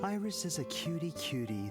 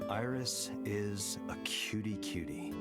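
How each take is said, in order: First: It is said warmly, with real feeling. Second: It is said flatly, without enthusiasm.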